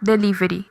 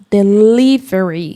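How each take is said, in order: First: The stress is on the syllable ri. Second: The stress is on the syllable li. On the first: This is how Brazilians usually say it. "nós falamos como? ... Ri. Ri" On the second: This is the English pronunciation. "no inglês o mais forte é falar a sílaba li"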